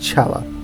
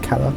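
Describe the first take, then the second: First: The word begins with a ch sound. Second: The word begins with a k sound. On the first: This is the Italian way of saying it. "I think that's the Italian pronunciation" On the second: This is the ancient Latin way of saying it. "if it was ancient Latin, I think it's a K sound"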